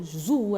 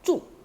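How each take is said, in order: First: The word starts with a plain 'z' sound. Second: The word starts with a 'ch' sound. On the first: The speaker calls it wrong. "kita tak boleh sebut zu" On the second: The speaker calls it right. "Kita kena sebut cu"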